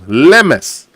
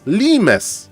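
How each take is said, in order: First: The first vowel sounds like 'e' in 'mess'. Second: The first vowel sounds like 'ee' in 'lime'. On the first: The speaker calls it right. "you pronounce Lemes as Le and Mes, like mess in your room" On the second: The speaker calls it wrong. "Mister Bidu was pronouncing Lemes as Limes"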